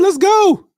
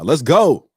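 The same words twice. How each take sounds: First: It is said in a very high voice. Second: It is said in his lower natural voice.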